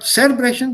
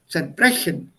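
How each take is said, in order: First: The stress is on the first syllable. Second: The stress is on the second syllable. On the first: The speaker calls it wrong. "not zerbrechen" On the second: The speaker calls it right. "sondern zerbrechen"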